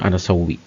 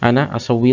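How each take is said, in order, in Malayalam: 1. വാക്കുകൾ ഒന്നായി ചേരുന്നു, ഒരു സ്വരാക്ഷരം പങ്കിടുന്നു. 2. രണ്ട് വാക്കുകളും വേറെ വേറെയായി പറയുന്നു, രണ്ട് സ്വരാക്ഷരവും കേൾക്കാം. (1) "പക്ഷെ നമ്മൾ പറയുമ്പോൾ അനസൗവി" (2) "അത് അന അസൗവി എന്നാണ് ശരിക്കും"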